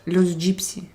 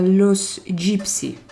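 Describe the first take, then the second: First: Said in the usual way. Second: Langsam gedehnt. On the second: Shown as a demonstration. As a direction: Wort für Wort in die Länge ziehen.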